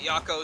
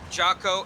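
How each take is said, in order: First: The name begins with a Y sound. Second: The name begins with a J sound. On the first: The speaker calls it wrong. "and not Yako, so I will uh, stop pronouncing it that way" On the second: The speaker calls it right. "it is uh, Jocko"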